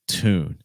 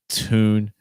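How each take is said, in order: First: The pitch falls at the end. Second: The pitch rises at the end.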